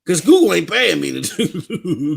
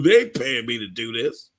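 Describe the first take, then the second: First: Said in the usual way. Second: Chuckling it out softer; laughing. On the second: Real, not acted. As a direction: laugh through the repeat, dropping lower.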